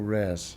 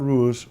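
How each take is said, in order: First: The vowel is broad, sounding like 'rares'. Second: The vowel sounds like standard 'rows'.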